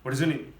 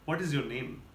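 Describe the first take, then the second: First: It is said very fast. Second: It is said at normal speed.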